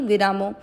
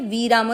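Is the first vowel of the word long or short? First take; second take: short; long. First: The first vowel is kept short. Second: The first vowel is drawn out long. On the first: The speaker calls it right. "मात्रा दोनों श्लोकों में ही छोटी है, इसलिए आपको विरामो बोलना है" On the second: The speaker calls it wrong. "वीरामो नहीं"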